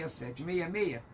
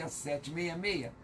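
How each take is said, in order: Both takes have the same delivery.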